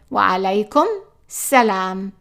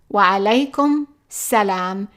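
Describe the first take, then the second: The two takes are said the same way.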